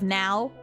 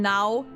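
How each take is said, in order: First: It is said plainly, with an English accent. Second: It is said flat, with a German accent. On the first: "instead of now" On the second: "A German accent sounds really flat. It's like saying now"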